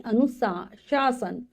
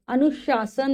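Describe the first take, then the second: First: "अनुशासन" very slowly, syllable by syllable; correct pronunciation. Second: "अनुशासन" run together as anush-aasan; mispronounced word. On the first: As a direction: draw out the shaa-san in "अनुशासन", slowly. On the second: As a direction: say "अनुशासन" quickly as the wrong take. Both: Shown as a demonstration. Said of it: "अनुशासन नहीं".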